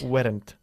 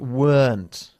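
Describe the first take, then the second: First: The word is said as two syllables. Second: The word is said as one syllable. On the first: The speaker calls it wrong. "Not weren't" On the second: The speaker calls it right. "you need to say weren't"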